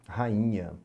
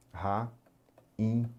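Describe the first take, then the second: First: Said in the usual way. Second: "ra-in-nha" with clear pauses between syllables. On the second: Shown as a demonstration. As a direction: sound out "ra-in-nha" piece by piece for learners. ("ra-in-nha" sílaba por sílaba, com pausas) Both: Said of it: "por exemplo, na palavra".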